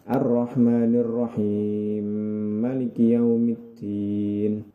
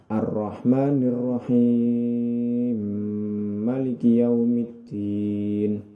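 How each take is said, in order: First: The merged m is held for two counts. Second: The merged m is held for six counts. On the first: "jika dua harokat" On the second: "jika enam harokat"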